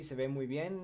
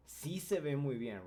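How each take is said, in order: First: Said in the usual way. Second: "Sí" stressed at the start; emphatic sí. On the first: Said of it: "You can say". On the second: Shown as a demonstration. Teacher contrasting plain with emphatic Spanish, stressing "Sí". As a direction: hit "Sí" to insist. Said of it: "to make your statement more emphatic".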